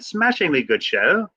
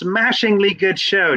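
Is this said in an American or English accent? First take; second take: English; American. First: It is said in a put-on English accent. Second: It is said in the speaker's ordinary accent.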